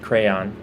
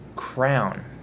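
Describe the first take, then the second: First: The word is said with two syllables. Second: The word is said with one syllable. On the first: The speaker calls it right. "I do pronounce it crayon, two syllables" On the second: The speaker calls it wrong. "kids these days, they're always calling it crown"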